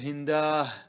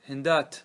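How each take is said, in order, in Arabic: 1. تنتهي الكلمة بصوت الهاء. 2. تنتهي الكلمة بتاء ساكنة غير مشكولة. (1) "يقلب إلى هاء يقول هنداه" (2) "كيف تقف عليه؟"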